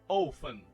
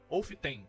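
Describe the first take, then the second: First: The T sound is silent. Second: The T sound is pronounced. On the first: The speaker calls it right. "Você não vai falar o som desse T" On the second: The speaker calls it wrong. "Não, tá errado"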